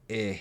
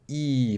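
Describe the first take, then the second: First: The vowel sounds like a short eh. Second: The vowel sounds like a long ee. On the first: The speaker calls it right. "but eh" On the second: The speaker calls it wrong. "So not E"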